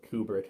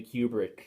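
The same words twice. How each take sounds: First: "Kubrick" starting like the word coo; Kubrick as KOO-brick. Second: "Kubrick" starting like the word cue; Kubrick as KYOO-brick. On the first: Reviewer offering another way to say the director's name, "Kubrick" as KOO-brick. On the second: Reviewer naming the film's director, "Kubrick" said KYOO-brick. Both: Shown as a demonstration. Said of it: "however you want to pronounce his name".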